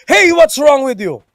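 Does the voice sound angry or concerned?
angry. It is said loudly, in an angry tone. The speaker seems to be attacking the listener. "written, especially in all caps"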